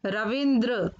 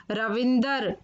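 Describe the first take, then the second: First: Said in the usual way. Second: रविंदर ending in "dar"; mispronounced रविंद्र. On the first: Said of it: "फिर उनका शुद्ध उच्चारण". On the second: Shown as a demonstration. Teacher showing children the error, रविंदर ending "dar". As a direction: split the final dr into "dar" in रविंदर. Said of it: "अशुद्ध शब्द मैंने रखे हैं".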